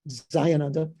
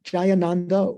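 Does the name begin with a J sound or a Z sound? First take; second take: Z sound; J sound. First: The name begins with a Z sound. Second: The name begins with a J sound. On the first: This is how Tibetans pronounce it. "the Tibetans say Zayananda" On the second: This is the usual Sanskrit pronunciation. "the J that we we usually would recognize in uh, Sanskrit"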